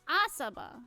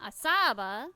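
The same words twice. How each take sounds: First: The stress is on the first syllable. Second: The stress is on a later syllable. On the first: The speaker calls it right. "The the emphasis is on the first syllable" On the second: The speaker calls it wrong. "not Asaba"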